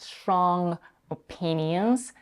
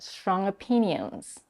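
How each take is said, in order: First: The two words are said separately. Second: The two words merge with a schwa link. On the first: The speaker calls it wrong. "It's not strong opinions" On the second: The speaker calls it right. "There is no pause between these two words"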